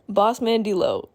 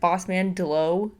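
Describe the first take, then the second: First: The first syllable of the name sounds like 'dee'. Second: The first syllable of the name sounds like 'del'. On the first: The speaker calls it right. "So I actually learned that it is D-Lo, not Delo" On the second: The speaker calls it wrong. "I don't even know if I'm saying that right"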